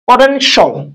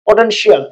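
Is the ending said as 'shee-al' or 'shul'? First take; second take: shul; shee-al. First: The ending is said as one syllable, shul. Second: The ending is said as two syllables, shee-al. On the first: The speaker calls it right. "এখানে আমরা বলবো সল সল।" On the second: The speaker calls it wrong. "এটা this is a wrong method"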